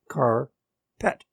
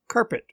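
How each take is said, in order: First: It is said as two separate words. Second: It is said as one joined word.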